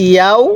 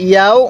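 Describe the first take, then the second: Both takes have the same delivery.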